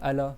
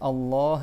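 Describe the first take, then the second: First: It is said with a French accent. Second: It is said with a classical Arabic accent. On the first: The speaker calls it wrong. "comme on dit en français" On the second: The speaker calls it right. "il y a deux L et tu prolonges le, ha, le A et après il y a un Ha à la fin"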